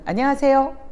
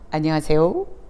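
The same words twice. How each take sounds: First: The greeting is said at a middle pitch. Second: The greeting is said at a low pitch. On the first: "도보다는" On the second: "도"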